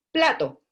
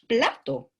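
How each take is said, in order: First: Plato lebih tinggi dan keras; model word. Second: Said in the usual way. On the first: Shown as a demonstration. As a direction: ucapkan plato dengan jelas dan tegas. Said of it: "Por ejemplo". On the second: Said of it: "Chuta, plato".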